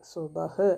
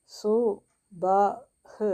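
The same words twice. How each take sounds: First: "സുബഹ്" joined as one word; whole-word reading of "സുബഹ്"; blended reading. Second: "സു", "ബ", "ഹ്" each said apart; teacher breaking the word into "സു ബ ഹ്"; syllable by syllable. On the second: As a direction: sound out "സു"... "ബ"... "ഹ്" with pauses. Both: Shown as a demonstration. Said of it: "സായുടെ കൂടെ ഊ ചിഹ്നം വന്നു".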